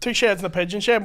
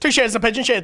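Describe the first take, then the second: First: It is said at a normal pace. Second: It is said quickly, repeated rapidly.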